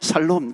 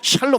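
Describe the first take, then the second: First: The word begins with a plain 's' sound. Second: The word begins with an 'sh' sound. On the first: The speaker calls it wrong. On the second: The speaker calls it right.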